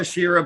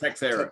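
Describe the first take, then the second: First: The name begins with a 'tesh' sound. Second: The name begins with a 'tex' sound. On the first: This is the standard form of the name. "It's supposed to be" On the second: This is how the person himself says it. "but he pronounces it like"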